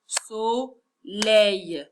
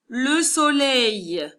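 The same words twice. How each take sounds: First: Soleil broken as so, pause, leil; split into syllables. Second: Said in the usual way. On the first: Shown as a demonstration. Teacher counting syllables for pupils, Soleil split in two. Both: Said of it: "On va taper pour savoir il y a combien de syllabes".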